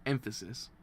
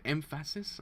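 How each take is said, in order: First: Said in the usual way. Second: "emphasis" with the middle syllable stressed, em-FASS-is; doubtful "emphasis", leaning on FASS; trying a pronunciation. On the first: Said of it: "no, it's emphasis". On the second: Shown as a demonstration. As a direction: try "emphasis" as em-FASS-is, questioning. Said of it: "Is it, no, it's emphasis".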